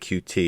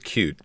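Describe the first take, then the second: First: It is said as two separate letters. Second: It is said as one word, like cute. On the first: "I always pronounced it Q T" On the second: "You you pronounce it Qt"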